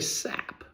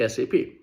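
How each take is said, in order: First: It is said as a single word. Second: It is spelled out letter by letter. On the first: The speaker calls it wrong. "We don't say S A P" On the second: The speaker calls it right. "We say S A P. So those are non-pronounceable acronyms"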